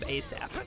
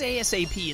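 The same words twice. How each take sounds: First: It is said as a single word. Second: It is spelled out letter by letter. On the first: The speaker calls it right. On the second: The speaker calls it wrong.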